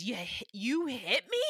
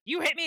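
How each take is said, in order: First: Betrayed question. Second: Mad retort. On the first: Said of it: "the voice that Brendan Fraser does". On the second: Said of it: "and then he gets, like, mad". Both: Retold or imitated.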